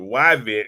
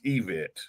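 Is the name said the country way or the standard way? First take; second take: country; standard. First: The name is said the country way. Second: The name is said the standard way. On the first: This is the speaker's own regional way of saying it. "permission to pronounce it Yvette because I'm country" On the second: This is how the name is really pronounced. "We totally know it's pronounced Yvette"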